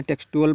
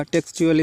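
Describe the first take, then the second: First: "टेक्सचुअल" said teks-tu-al, with no ch; children's mispronunciation. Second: "टेक्सचुअल" said teks-chu-al; correct ch reading. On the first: Teacher quotes many children's reading, "टेक्सचुअल" as teks-tu-al. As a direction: say "टेक्सचुअल" with a hard t before the u. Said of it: "इसको बहुत से बच्चे क्या करते हैं". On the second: Teacher models the word for students, "टेक्सचुअल" with a ch sound. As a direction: turn the middle t of "टेक्सचुअल" into ch. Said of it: "टेक्सचुअल पढ़ा जाएगा". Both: Shown as a demonstration.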